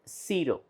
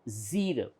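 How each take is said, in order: First: The first sound is not a buzzing z. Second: The first sound is a buzzing z. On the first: The speaker calls it wrong. "It is not zero" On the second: The speaker calls it right. "It is Z, zero"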